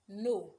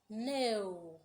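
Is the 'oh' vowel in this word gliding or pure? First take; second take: pure; gliding. First: The vowel is a pure, unchanging 'o'. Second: The vowel glides as a full 'oh' sound. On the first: The speaker calls it wrong. "Many people would say words like" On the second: The speaker calls it right. "you should go like"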